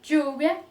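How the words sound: The ll is pronounced as a dj sound. "Ele pode ter o som de D J"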